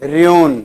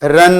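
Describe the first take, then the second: First: It is said as two syllables, like roo-in. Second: It is said as one short syllable, like run. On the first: The speaker calls it right. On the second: The speaker calls it wrong.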